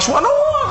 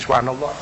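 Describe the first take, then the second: First: It is said loudly, for others. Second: It is said softly, to oneself.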